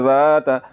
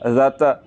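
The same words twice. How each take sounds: First: The vowel after the first consonant is drawn out long. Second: The vowel after the first consonant is kept short. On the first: The speaker calls it right. "तो इसको आपने लंबा करके पढ़ना है।" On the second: The speaker calls it wrong. "अगर लंबा करके ना पढ़ें"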